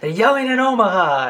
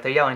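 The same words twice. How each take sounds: First: Much higher, louder thrilled echo; unbridled excitement. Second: Said in the usual way. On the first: Retold or imitated. Producer thrilled by yelling callers, much higher and louder. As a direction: savor the news with delight. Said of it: "delivers it with such unbridled excitement".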